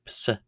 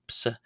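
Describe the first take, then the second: First: It begins with a P sound. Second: It begins with a P sound.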